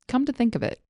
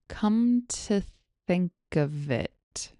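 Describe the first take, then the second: First: The phrase is said at normal speed. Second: The phrase is said slowly. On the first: "Here it is at normal speed" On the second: "Here it is slowly"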